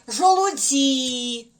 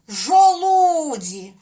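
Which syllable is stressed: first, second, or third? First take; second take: third; second. First: The stress is on the third syllable. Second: The stress is on the second syllable. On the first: "А якщо сюди поставити? ... Так само неправильно" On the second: "якби ми поставили наголос от сюди, на звук У"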